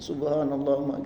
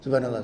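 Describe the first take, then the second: First: The phrase is said slowly and calmly. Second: The phrase is said quickly and rushed. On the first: The reciter is reflecting on the meaning. The speaker calls it right. "kita hayati pelan-pelan saja" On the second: The reciter is chasing the number of repetitions. The speaker calls it wrong. "mengejar jumlahnya, kuantitasnya"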